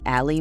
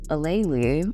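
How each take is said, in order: First: The name is said in a shortened form. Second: The name is said in its full form. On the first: The speaker calls it wrong. "The worst pronunciation and the most common pronunciation of my name" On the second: The speaker calls it right. "it's Alayli"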